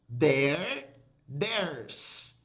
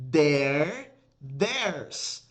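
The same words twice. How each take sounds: The two takes are said the same way.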